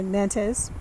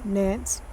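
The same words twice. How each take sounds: First: Nantes said as two syllables; two-syllable variant. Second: Nance said as one syllable; Nance, the one-syllable pronunciation; one-syllable variant. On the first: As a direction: say Nantes as NAN-tez. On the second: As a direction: say Nance, rhyming with dance. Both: Shown as a demonstration. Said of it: "heard it pronounced two different ways".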